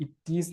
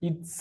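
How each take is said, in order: First: "It is" said as two words; "It is" with its own vowel in "is"; two separate words. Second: "its" said as one syllable; "its" run together, with no second vowel; one single word. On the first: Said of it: "It is എന്നല്ല". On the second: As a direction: say "its" as one word, ending straight in "ts". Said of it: "It is എന്നല്ല, its". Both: Shown as a demonstration.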